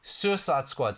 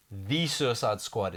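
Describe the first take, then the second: First: Said in the usual way. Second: "The" stressed and drawn out as "thee". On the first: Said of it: "The Suicide Squad is phenomenal". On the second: Shown as a demonstration. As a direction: lean hard on "The" before Suicide Squad. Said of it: "Suicide Squad sucks".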